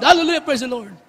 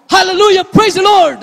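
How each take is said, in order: First: Said in the usual way. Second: Loud, high burst of hallelujah; startled believer crying hallelujah, loud and high; startled praise. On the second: Retold or imitated. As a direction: blurt it out as if suddenly surprised. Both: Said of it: "ang nasasambit mo".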